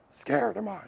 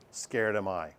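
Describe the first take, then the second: First: A hint of Yoda, raised higher and soft; lightly voiced Yoda, pitched up. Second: A hint of Yoda, dropped low and soft; lightly voiced Yoda, low and quiet. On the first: Teacher acting Yoda speaking to Luke, higher. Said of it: "like that". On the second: Teacher showing the class how Yoda talks, low and soft. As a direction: backwards Yoda phrasing, voice pitched down. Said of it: "Yoda always did it backwards. He'd say".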